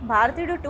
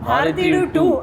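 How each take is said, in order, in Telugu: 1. ఈ పేరు సాదాసీదాగా, మామూలుగా అంటారు. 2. ఈ పేరు గర్వంగా, గొప్పగా అంటారు. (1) "అని అనలేం" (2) "అనాలన్నమాట. ఎందుకంటే భారతీయులు కాబట్టి ఆ గర్వం ఉంటది"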